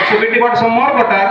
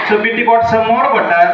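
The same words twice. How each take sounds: No difference in how they are said.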